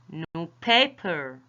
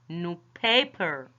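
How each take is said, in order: First: The stress falls on the second part, paper. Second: The same.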